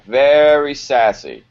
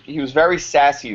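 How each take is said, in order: First: "Very" drawn out, slow and loud; "Very sassy" slow and emphatic; stress on very. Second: Said in the usual way. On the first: Shown as a demonstration. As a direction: lean on "Very sassy" slowly.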